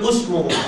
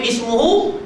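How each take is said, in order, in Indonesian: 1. Kata itu dimulai dengan vokal u. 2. Kata itu dimulai dengan vokal i. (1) "dia baca usmuhu, salah" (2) "Orang baca ismuhu"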